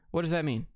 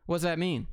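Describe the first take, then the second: No difference in how they are said.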